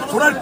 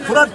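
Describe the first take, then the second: No difference in how they are said.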